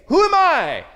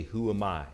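First: High, loud, strained cry of self-doubt; anguished cry. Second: Said in the usual way. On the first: Shown as a demonstration. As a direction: wail the question as a doubting believer. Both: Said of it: "When I say".

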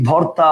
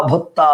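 First: Said in the usual way. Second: ভত্তা with doubled t, no r; assimilated pronunciation. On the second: Shown as a demonstration. Teacher listing examples for students, assimilated pronunciation. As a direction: turn the r into t in ভত্তা. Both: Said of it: "সব হচ্ছে পরাগত সমীভবনের উদাহরণ".

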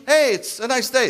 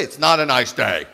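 First: Higher and brighter, a light mock-cheery greeting; cheerful husband. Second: Lower, with stress on "not", a mock contradiction; contrary wife. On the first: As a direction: play the husband chirping about the weather. Husband voicing a cheerful remark. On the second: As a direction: play the wife shooting him down. Wife contradicting him flatly.

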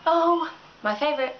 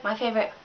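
First: Oh said with a falling swoop of fake delight; mock delight. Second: "my favorite" dropped lower, flat and sardonic; deadpan the repeat; dry repeat. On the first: Mocking Facebook posters with fake delight. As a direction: savour "my favorite" with a mocking swoon. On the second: Sneering at attention-seeking posts, dry and low. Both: Shown as a demonstration.

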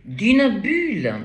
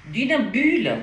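First: "d'une bulle" slow and loud, stress on "d'une"; slow weighted repeat. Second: "d'une bulle" high and loud, falling on "bulle"; emphatic stress. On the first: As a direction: drag out "d'une bulle" word by word. ("d'une bulle" lent et martelé) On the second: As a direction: lands "bulle" with a strong high fall. ("bulle" appuyé, haut et fort) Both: Shown as a demonstration.

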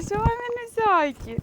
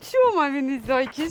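First: Cooing. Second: Said in the usual way. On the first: Real, not acted. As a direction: coo to the puppies, slowly and high. Cooing to puppies.

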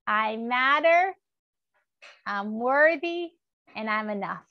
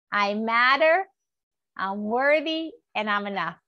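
Both takes have the same delivery.

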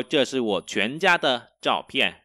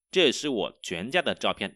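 First: Slow, clear Chinese model sentence; slow teacher model; slow model reading. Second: Said in the usual way. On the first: Shown as a demonstration. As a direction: read it slowly for students to copy. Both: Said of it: "Đây là ảnh của cả gia đình tôi".

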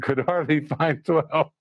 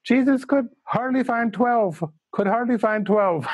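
First: Said in the usual way. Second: High Indian English voice, solemn; old Indian teacher in Indian English accent. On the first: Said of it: "I just was laughing so hard". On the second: Retold or imitated. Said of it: "in his Indian, Indian English accent".

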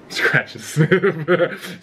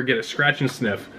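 First: Slow amused laugh through words. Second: Said in the usual way. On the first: Real, not acted. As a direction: chuckle it out slowly. Reads item then laughs at it.

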